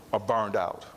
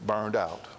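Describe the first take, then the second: First: Said in the usual way. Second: "burned" pressed down firmly and falling; stress on burned. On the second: Shown as a demonstration. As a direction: lean hard on "burned" to correct "vacant". Contrast: not vacant, burned out.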